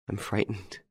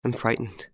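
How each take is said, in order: First: Much softer, frightened and tearful; the repeat sinks almost to a breath; frightened, fading. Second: Frightened, a little higher and tearful. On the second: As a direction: say it like a scared woman near tears. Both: A narrator's reading. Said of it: "She sobbed".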